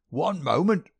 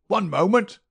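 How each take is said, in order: First: High, loud querulous cry; an old miser calling out to stop them; querulous old man. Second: Much higher, much louder querulous cry; old miser crying out harder to halt them; querulous old man, louder. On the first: Old man interrupting the detective, high querulous cry. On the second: Old man insisting from the doorway, loud high querulous cry. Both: A narrator's reading. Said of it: "cried a querulous voice".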